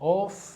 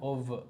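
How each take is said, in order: First: The word ends with an F sound. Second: The word ends with a V sound. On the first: The speaker calls it wrong. "ഓഫ് അല്ല" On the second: The speaker calls it right. "എഫ് അവിടെ വരത്തില്ല, വ sound വരുന്നത്"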